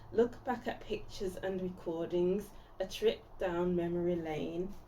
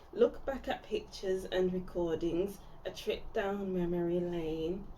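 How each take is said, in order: No difference in how they are said.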